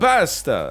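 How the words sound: It is said the American way. "in America, you're supposed to go a pasta"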